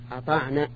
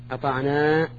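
First: "أطعنا" with a short final vowel; final alif dropped. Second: "أطعنا" with a long final aa; original final alif. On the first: Teacher showing students the dropped alif, short final vowel in "أطعنا". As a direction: cut the last "a" of "أطعنا" short. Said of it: "نحذف الألف". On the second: Teacher showing students the original form, long final alif in "أطعنا". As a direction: hold the last vowel of "أطعنا". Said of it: "لأصله بالألف". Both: Shown as a demonstration.

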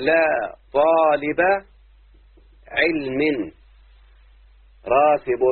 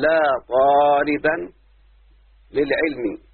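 First: Drawn-out, deliberate example phrase; slow example read. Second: "لا طالبا" stretched slowly, the tanween on "طالبا" held and rising; stressed tanween. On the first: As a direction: spell the example out slowly, word by word. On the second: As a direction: draw out "طالبا" so the nunation rings. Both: Shown as a demonstration. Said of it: "أقول".

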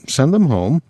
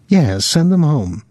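First: "Send them home" rising into a question; higher, questioning lift on "Send them home"; questioning echo. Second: "Yes" stressed, "home" falling; decisive falling "send them home", led by a high "Yes"; firm confirmation. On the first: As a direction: ask it back, lifting at the end of "home". Willie echoes her wish as question. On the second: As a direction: land hard on "Yes", drop to a close on "home". She answers his question firmly. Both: A narrator's reading.

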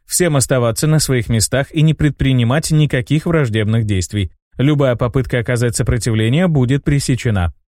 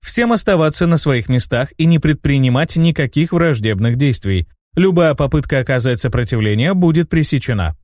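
First: Безучастный голос синтезатора; отчекань без эмоций, как машина; old speech synthesizer. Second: Ровный механический голос автомата; мерно объявляй, как робот-патруль; old speech synthesizer. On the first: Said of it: "прозвучало безучастное". (безучастный голос робота) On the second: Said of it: "объявил синтезированный голос". (голос синтезатора речи) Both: A narrator's reading.

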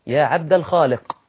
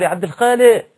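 First: الخالق said plainly with a full final ق; correct pronunciation. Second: الخالق shouted with the final ق dropped; wrong calling pronunciation. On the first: Preacher showing his audience the proper name, said carefully. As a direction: say عبد الخالق carefully, sounding every letter. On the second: To a man in the street, calling loudly with the ق dropped. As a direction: call out عبد الخالق loudly, swallowing the ق. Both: Shown as a demonstration. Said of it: "ما ينفعش".

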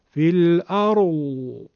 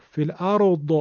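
First: "الارض" slowly trailing into a drawn-out moan, no d stop; Hijazi Dad, moaning tail. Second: "الارض" ending on a released, bouncing d; faulty qalqala bounce. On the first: Teacher showing the Hijazi Dad at a pause, moaning. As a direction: let the end of "الارض" hum on like a dove. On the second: Teacher showing the mistake, bounced final d. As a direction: pop the final d of "الارض" with a short echo. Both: Shown as a demonstration.

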